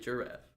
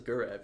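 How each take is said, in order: First: The word begins with a J sound. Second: The word begins with a hard G sound. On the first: The speaker calls it right. "You have the G that sounds like a J" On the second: The speaker calls it wrong. "nobody says giraffe"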